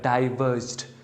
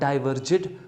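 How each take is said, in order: First: The -ed ending is pronounced lightly and subtly. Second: The -ed ending is pronounced fully and strongly. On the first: The speaker calls it right. "you know subtle sound of ed" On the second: The speaker calls it wrong. "not diverged"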